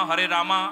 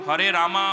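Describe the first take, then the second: Both takes have the same delivery.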